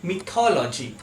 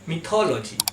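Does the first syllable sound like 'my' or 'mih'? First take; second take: mih; mih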